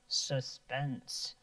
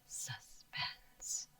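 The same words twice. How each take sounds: First: The word is spoken in a low pitch. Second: The word is whispered without full voice. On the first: "Can you say it low?" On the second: "Can you whisper it?"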